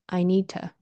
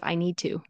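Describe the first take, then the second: First: The word 'to' is reduced and unstressed. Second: The word 'to' is full and clearly pronounced. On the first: "very often we will say it unstressed" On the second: "instead of"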